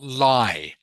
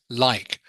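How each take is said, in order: First: The final k sound is left off. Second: The final k sound is clearly pronounced. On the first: The speaker calls it wrong. "not lie. Otherwise, it sounds like a different word" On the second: The speaker calls it right. "pronounce that last consonant sound, such as like"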